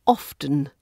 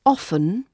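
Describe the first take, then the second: First: Often with the T sounded, OFF-tun; pronounced T. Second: Often with no T, said OFF-un; silent T. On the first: Teacher offering learners the other choice, often with sounded T. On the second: Teacher offering learners the choice, often with silent T. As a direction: drop the T in often, OFF-un. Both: Shown as a demonstration. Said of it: "was pronounced with the T sound".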